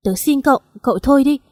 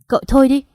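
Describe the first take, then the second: First: Pleading cry. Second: Sharp raised cry, higher and louder; shouting. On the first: Daughter cries out begging her friend to stop. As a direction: beg him to stop, raising the voice. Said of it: "tôi lại gào lên". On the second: Daughter shouts to stop her friend talking. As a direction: cut him off with a shout. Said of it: "tôi hét lên". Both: A narrator's reading.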